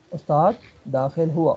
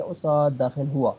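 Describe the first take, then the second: First: Slow, deliberate استاد داخل ہوا with each word spaced; slow model phrase. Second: Said in the usual way. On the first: Shown as a demonstration. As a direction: say استاد داخل ہوا slowly for the student to follow. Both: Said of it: "ٹھیک ہے، استاد داخل ہوا".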